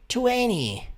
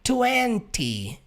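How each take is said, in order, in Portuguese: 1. A palavra é dita de forma leve, com os sons reduzidos. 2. A palavra é dita por completo, com todos os sons claros. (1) "que você pode falar de forma mais leve" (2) "O número vinte é vinte"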